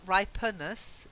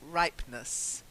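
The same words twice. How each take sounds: First: An extra vowel is sounded before the ending. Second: No vowel is sounded before the ending. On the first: The speaker calls it wrong. "not ripeness" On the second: The speaker calls it right. "silent E, ... just ripeness"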